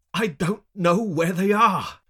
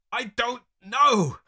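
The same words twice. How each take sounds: First: High, loud, drawn-out protest; anguished, slow shout; pained cry. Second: High, loud, drawn-out retort; exasperated high yell; snapping back. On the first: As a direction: cry it out through pain. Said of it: "I wince in pain". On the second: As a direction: snap back at your tormentors. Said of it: "I snap back at them". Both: A narrator's reading.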